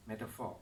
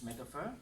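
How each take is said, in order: First: "metaphor" the American way, ending in an open "for"; American pronunciation. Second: "metaphor" the British way, ending in an unrounded "fuh"; British pronunciation. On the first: Teacher comparing British and American, American pronunciation. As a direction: say American "metaphor" with a full "or" vowel, falling. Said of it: "American is metaphor". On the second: Teacher comparing British and American, British pronunciation. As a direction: say British "metaphor" with a weak last vowel. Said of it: "British is metaphor". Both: Shown as a demonstration.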